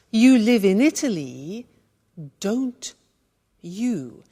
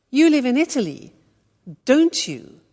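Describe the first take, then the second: First: "don't ... you" split by long pauses; step-by-step demonstration. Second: "don't you" said in one go, falling; joined-up example sentence. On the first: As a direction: build "don't you" word by word for learners. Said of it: "So look how that works". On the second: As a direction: run "don't you" together, dropping on "you". Whole example after breakdown. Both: Shown as a demonstration.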